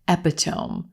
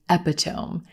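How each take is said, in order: The two takes are said the same way.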